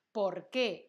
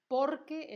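First: "¿Por qué?" loud, weight on qué; question stress on QUÉ. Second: "por qué" as one word, por high and loud; answer stress on POR. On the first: Teacher labelling the question word, "¿Por qué?" stressed on qué. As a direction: land firmly on qué in "¿Por qué?". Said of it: "es la pregunta". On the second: Teacher labelling the answer word, "por qué" stressed high on por. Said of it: "es la respuesta". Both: Shown as a demonstration.

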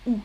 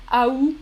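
First: Ou as just "oo"; one syllable ou, no T; ou, silent T. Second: Aou as "a-oo"; two syllables in aou, no T; aou, silent T. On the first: Teacher repeats Canadian form, ou as "oo". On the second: Teacher repeats Canadian form, aou as "a-oo". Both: Shown as a demonstration. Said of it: "pas de T final prononcé".

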